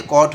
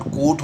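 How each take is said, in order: First: कॉट with an open, short O; open O sound. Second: कोट with a long, rounded O; long O sound. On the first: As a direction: keep the vowel of कॉट open. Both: Shown as a demonstration. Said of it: "long ओ का sound".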